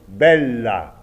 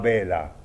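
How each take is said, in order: First: The l sound in the middle is held long. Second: The l sound in the middle is short. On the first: The speaker calls it right. "pensez beaucoup aux doubles consonnes" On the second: The speaker calls it wrong. "pas bella"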